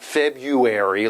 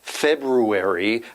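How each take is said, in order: First: It is pronounced the common everyday way. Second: It is pronounced just as it is spelled. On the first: "like everybody says" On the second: "spelled February"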